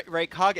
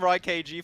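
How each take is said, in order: First: "Raikage" as one word, ending ka-geh; corrected pronunciation. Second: "Rai K G" said as name plus two spelled letters; imitated mispronunciation. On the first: Shown as a demonstration. Caster correcting co-caster, "Raikage" pronounced as one Naruto name. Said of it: "It's Ra-, Raikage. It's a Naruto reference". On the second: Caster querying co-caster's pronunciation, "Rai K G" in separate letters. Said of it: "are you calling him Rai K G".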